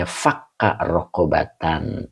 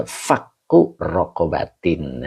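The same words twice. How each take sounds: First: Fakka Rokobatan with a clear a on each ending; the a endings in Fakka Rokobatan said calmly and distinctly; reading Fakka Rokobatan. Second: Fakku with a u ending, Rokobatin with an i ending; the u and i endings in Fakku Rokobatin said calmly and distinctly; reading Fakku Rokobatin. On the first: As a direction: read Fakka Rokobatan as the first qiraat. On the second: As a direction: read Fakku Rokobatin as the second qiraat. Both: Shown as a demonstration. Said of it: "Jadi ada dua kiroat".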